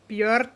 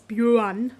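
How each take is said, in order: First: It is said with the Icelandic pronunciation. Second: It is said with the wider European pronunciation.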